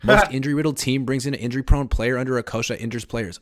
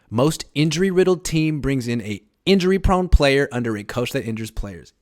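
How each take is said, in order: First: It is read at normal speed. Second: It is read slowly and deliberately.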